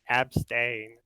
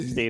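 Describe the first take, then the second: First: The word begins with an 'ab' sound. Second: The word begins with an 'ep' sound. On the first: The speaker calls it right. "It's abstain" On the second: The speaker calls it wrong. "It's not Epstein"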